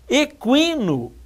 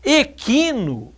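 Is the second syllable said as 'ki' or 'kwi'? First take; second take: kwi; ki. First: The second syllable is said as 'kwi'. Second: The second syllable is said as plain 'ki'. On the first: "K U I" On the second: "é K I só"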